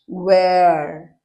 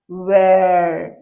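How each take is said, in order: The two takes are said the same way.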